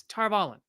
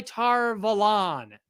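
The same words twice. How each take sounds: First: Tar Valon quicker, as "Tar VAL-un"; correct pronunciation. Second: Tar Valon stretched slowly into "Tar Va-LAHN"; incorrect pronunciation. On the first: Shown as a demonstration. Correcting it to every audiobook's version, firm pronunciation demo. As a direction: stress VAL, short weak ending on "Valon". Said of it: "That's how they say it". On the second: Retold or imitated. Asking why the show says it so, mock drawn-out pronunciation. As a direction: drag out a long open ending on "Valon". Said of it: "someone would incorrectly pronounce it".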